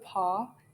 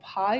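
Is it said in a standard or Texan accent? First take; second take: Texan; standard. First: The vowel is flattened, Texan style. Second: The vowel is a full standard diphthong.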